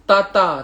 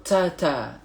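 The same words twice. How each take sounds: First: Ta with the wrong, unaspirated ta; the incorrect Ta. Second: Ta with air escaping after it; correct aspirated ta. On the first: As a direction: say Ta without the Arabic breath. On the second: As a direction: let breath out on ta. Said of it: "Dia ada angin keluar". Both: Shown as a demonstration.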